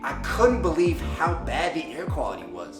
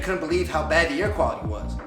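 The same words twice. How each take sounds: First: It is spoken at a slower, measured pace. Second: It is spoken at a rushed, fast pace. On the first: The speaker calls it right. "slowing it down like this would be better" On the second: The speaker calls it wrong. "So too fast would be"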